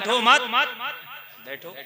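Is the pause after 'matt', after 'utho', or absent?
after matt. The pause comes after 'matt', meaning stay seated.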